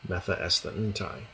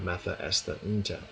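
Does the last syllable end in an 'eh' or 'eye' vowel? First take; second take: eye; eh. First: The last syllable ends in an 'eye' vowel. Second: The last syllable ends in an 'eh' vowel. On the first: "the Erasmian pronunciation is" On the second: "The reconstructed kune"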